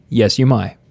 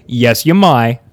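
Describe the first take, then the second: First: Lightly Southern "may", vowel widened toward "my"; Southern-sounding accent. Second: Louder, amused take with an Australian "may"; Australian-sounding accent. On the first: Host answering the guest's request to speak, Southern-sounding accent. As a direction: answer with a hint of a Southern twang. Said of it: "That just sounds like Southern accent". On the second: Host retrying the permission to speak, Australian-sounding accent. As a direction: stretch "may" toward "my" like an Australian, laughing. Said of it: "Sounds like Australian". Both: Acted.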